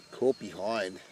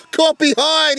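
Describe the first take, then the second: First: Said in the usual way. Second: Loud, high celebratory shout; roaring the dismissal; excited shout. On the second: Real, not acted. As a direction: bellow it as the edge is taken. Wicket falls, shouted call.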